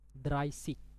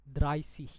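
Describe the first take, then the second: First: The ending is a hard g sound. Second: The ending is a soft ch-like sound. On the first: "Kalau huruf G" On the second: "Ini kalau seperti huruf H ya"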